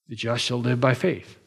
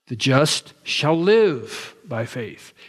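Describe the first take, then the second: First: The stress is on "by faith". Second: The stress is on "shall live".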